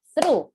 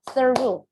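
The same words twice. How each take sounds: First: SERU run together as a single syllable, like THROUGH; no vowel between the S and R of SERU; one syllable. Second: THROUGH split in two, like thorough; two syllables. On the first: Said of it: "tapi itu cuma satu syllable". (SERU dalam satu suku kata) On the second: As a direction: add a vowel before the R in THROUGH. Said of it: "ada dua syllable". (THROUGH diucapkan dua suku kata) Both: Shown as a demonstration.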